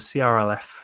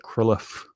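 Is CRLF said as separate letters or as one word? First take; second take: letters; one word. First: Each letter is spoken separately. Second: It is spoken as a single word. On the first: "it'll be sometimes called a C R L F sequence" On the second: "some people try and pronounce it as a C R L F sequence"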